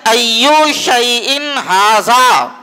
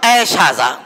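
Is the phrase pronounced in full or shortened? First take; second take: full; shortened. First: Every word of the phrase is said in full. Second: The phrase is run together into a shortened form. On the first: This is the actual original phrase. "असल में जुमला क्या है" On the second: This is the casual everyday form. "बोलते बोलते ऐसा हो गया ऐ शाजा"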